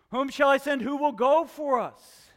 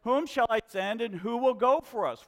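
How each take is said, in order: First: Booming voice of God. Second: Said in the usual way. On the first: Acted. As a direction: call it out like God asking for a messenger. Quoting God in sermon.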